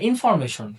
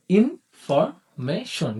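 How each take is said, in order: First: Said in the usual way. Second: ইনফরমেশন stretched very slowly into four syllables. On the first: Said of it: "ইনফরমেশনে দেখুন". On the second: Shown as a demonstration. Teacher to students, stretching ইনফরমেশন slowly by syllable. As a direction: drag ইনফরমেশন out slowly, one beat per syllable. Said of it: "সাউন্ডের মাধ্যমে বুঝতে চাই".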